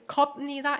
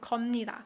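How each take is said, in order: First: A clear p sound comes before 니다. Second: An m sound comes before 니다. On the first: "enunciate it" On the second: "This one uh, puts way less stress on your mouth mm, and it's easier to pronounce"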